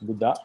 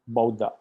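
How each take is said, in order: First: It is said with a Sri Lankan pronunciation. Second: It is said with a Myanmar pronunciation. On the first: "normally we pronounce Buddha" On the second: "in Myanmar pronunciation, you hear it as Buddha"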